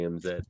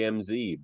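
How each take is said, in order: First: The letter is said the Canadian way, 'zed'. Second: The letter is said the American way, 'zee'.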